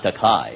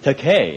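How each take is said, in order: First: The last syllable rhymes with 'eye'. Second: The last syllable rhymes with 'toupee'. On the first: The speaker calls it wrong. "it's not Takai" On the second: The speaker calls it right. "It's Takei, as in toupee or toupee"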